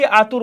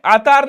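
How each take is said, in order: First: आतुर said with a short u, as aa-tur; the right आतुर, second vowel a clear short u; correct form. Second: आतार said with a long second a, as at-taar; the incorrect आतार, middle vowel drawn out as aa; wrong form. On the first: Teacher gives students the correct आतुर with a u. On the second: Teacher shows students the wrong आतार with a long aa. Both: Shown as a demonstration. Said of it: "आतार नहीं होता है बच्चे".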